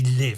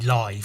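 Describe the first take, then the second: First: The word rhymes with 'give'. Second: The word rhymes with 'five'. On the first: The speaker calls it wrong. "Why would it be Live? That's stupid" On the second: The speaker calls it right. "because it's live comedy"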